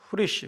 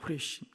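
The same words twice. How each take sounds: First: The word is pronounced in a plain everyday way. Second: The word is pronounced in a showy, stylish way.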